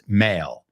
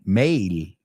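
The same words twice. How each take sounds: First: The vowel is plain, rhyming with ale. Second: The vowel carries an extra ee-like glide. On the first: This is how English speakers say it. The speaker calls it right. "but us it's male. Like ale" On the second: This is how Spanish speakers tend to say it. The speaker calls it wrong. "en Spanish es un poco más male, male, right? metes la I un poco ahí"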